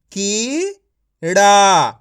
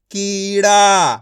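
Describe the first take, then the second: First: कीड़ा stretched very slowly, sound by sound; कीड़ा read slowly and clearly; slow drawn-out reading. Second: Said in the usual way. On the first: Shown as a demonstration. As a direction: draw out कीड़ा for a child to follow. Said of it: "teacher stretches the word slowly". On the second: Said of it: "teacher repeats it normally".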